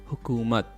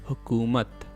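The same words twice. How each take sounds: The two takes are said the same way.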